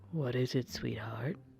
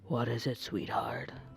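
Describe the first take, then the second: First: It is said in a softer, gentler deep voice. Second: It is said in a gruff, tough-guy voice.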